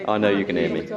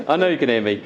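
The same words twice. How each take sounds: First: Said in the usual way. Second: Projecting across the room; louder, projecting. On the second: Real, not acted. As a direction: push the voice out to the back. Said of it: "for being loud".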